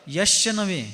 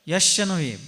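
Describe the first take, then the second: No difference in how they are said.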